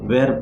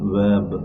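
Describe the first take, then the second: First: The word is said with an r sound. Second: The word is said lightly without an r sound. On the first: The speaker calls it wrong. "దాన్ని వెర్బ్ అని చాలామంది అంటారు. In communication skills we should not pronounce like that" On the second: The speaker calls it right. "వెబ్ అని తేలికగా మనం పలకాలి"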